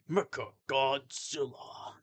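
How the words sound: It is said like the game's announcer.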